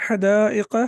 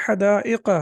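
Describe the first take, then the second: No difference in how they are said.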